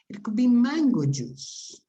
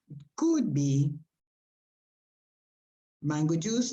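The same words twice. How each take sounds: First: The word could is not stressed. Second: The word could is stressed. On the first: It is more likely to be true. "more likely" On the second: It is less likely to be true. "If you stress may, might, or could, it sounds less probable. ... is less likely, less probable"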